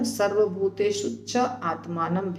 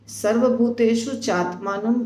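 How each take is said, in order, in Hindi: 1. 'cha' और 'atmanam' अलग-अलग शब्दों की तरह बोले जाते हैं। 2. 'cha' और 'atmanam' मिलकर एक शब्द बन जाते हैं। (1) "दोनों सही है" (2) "च और आत्मानम मिला हुआ है"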